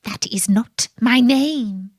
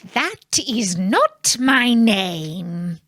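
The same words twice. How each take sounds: First: "my" leaned on lightly; stress on my. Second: Slow, "not" stretched and stressed. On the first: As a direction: That is not "my" name, lean on "my". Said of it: "the little man said". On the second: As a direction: drag the word "not" out firmly. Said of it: "he always answered". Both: A narrator's reading.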